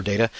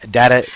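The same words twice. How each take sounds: First: "data" with a long first A; DAY-tuh pronunciation. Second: "data" with a short first A; DAT-uh pronunciation. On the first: Lecturer giving their preferred form, "data" as DAY-tuh. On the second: Lecturer giving the alternative to their own, "data" as DAT-uh. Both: Shown as a demonstration. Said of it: "I say data".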